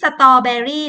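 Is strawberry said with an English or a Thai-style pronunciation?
Thai-style. It is said with a Thai-style pronunciation. The speaker calls it wrong. "ไม่ใช่"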